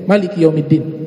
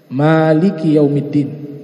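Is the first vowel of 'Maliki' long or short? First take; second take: short; long. First: The first vowel of Maliki is kept short. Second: The first vowel of Maliki is drawn out long. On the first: "dibaca pendek" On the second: "Dibacanya panjang"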